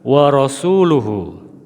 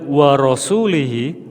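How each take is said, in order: First: The ending after rasul uses a u vowel. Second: The ending after rasul uses an i vowel. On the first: God and his messenger both disown the idolaters. The speaker calls it right. "yang betul adalah" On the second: God also disowns his messenger. The speaker calls it wrong. "kalau dilanjut wa rasulihi"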